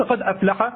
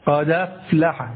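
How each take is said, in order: First: قد أفلح with the dal silent and a clear glottal stop before أفلح; full glottal stop. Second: قد أفلح as qadaflaħ, the hamza dropped and its a moved onto the dal; hamza vowel carried over. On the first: Teacher to students showing the fully voiced hamza. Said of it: "وحققت الهمزة هكذا". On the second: Teacher to students demonstrating the carried-over vowel, slowly. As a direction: slide قد into أفلح with no glottal stop. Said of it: "بدلا من". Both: Shown as a demonstration.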